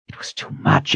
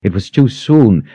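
First: Breathy whisper of despair. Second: Said in the usual way. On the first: Acted. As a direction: whisper it, overwhelmed. Despairing inner thought.

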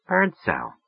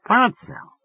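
First: Said in the usual way. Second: Birdsell said much higher, searching her memory; musing woman's voice. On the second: Acted. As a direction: turn the name over as she tries to place it. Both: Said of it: "running the name over in her mind".

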